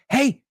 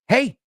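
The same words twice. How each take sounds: First: It is said urgently to grab attention. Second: It is said urgently to grab attention.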